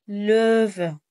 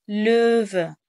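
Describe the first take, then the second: Both takes have the same delivery.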